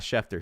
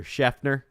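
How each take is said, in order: First: Schefter said with a crisp T sound, SHEF-ter; Schefter with a clear t. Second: "Schefter" with the t softened to an n, SHEF-ner, said a bit higher; imitating Steve Smith's Schefter. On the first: Shown as a demonstration. Host correcting a mispronounced reporter name, crisp t. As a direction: pronounce "Schefter" cleanly as SHEF-ter with a sharp t. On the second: Host mimicking how the coach said the reporter's name, softened t. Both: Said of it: "not Schefter".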